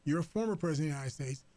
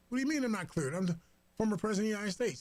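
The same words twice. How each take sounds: First: Former leaned on, the rest quick; stress on former. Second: Retold Trump, higher and rushed, outraged; indignant Trump. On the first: Retold or imitated. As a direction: hit the word former to put him in his place. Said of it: "the emphasis on the word former". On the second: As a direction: fire it off fast like an offended ex-president. Trump indignant about his briefings.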